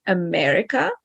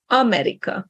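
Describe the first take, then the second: First: America with stress on the second syllable, MER; English pronunciation of America. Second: America stressed on the first A, every vowel clear; AH-meh-ree-ka, first-syllable stress on America; Hungarian pronunciation of America. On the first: Teacher contrasts English with Hungarian, English pronunciation of America. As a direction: say America the English way, weak first vowel. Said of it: "in English, we say America". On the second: Teacher shows Hungarian first-syllable stress, Hungarian pronunciation of America. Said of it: "In Hungarian, we say America".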